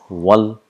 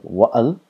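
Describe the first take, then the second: First: The vowels run together without any break. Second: A glottal break separates the two vowels. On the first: The speaker calls it right. "it disappears and it is pronounced as wal" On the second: The speaker calls it wrong. "It is not like wa'al"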